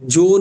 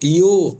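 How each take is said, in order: First: The word begins with a j sound. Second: The word begins with a y sound. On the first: The speaker calls it wrong. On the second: The speaker calls it right.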